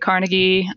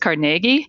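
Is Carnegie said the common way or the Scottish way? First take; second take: common; Scottish. First: The name is said the common way. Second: The name is said the Scottish way. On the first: "folks more often say Carnegie" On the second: "the Scottish pronunciation is Carnegie"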